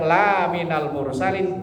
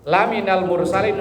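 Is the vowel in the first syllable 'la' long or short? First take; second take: long; short. First: The first vowel 'la' is drawn out long. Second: The first vowel 'la' is short. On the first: You are not among the messengers. The speaker calls it wrong. "kalau lanya panjang" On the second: You are certainly among the messengers. The speaker calls it right. "lanya pendek"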